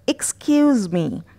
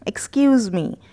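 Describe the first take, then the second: No difference in how they are said.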